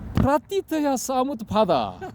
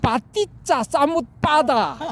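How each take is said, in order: First: It starts with a 'pr' cluster and 'tya'. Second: It starts with a tense 'pp' and 'ccha'. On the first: This form is dismissed as fake. The speaker calls it wrong. "이렇게 발음하면 안 돼. 이건 가짜야" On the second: This form is held up as genuine. The speaker calls it right. "이렇게 해야 이게 진짜야"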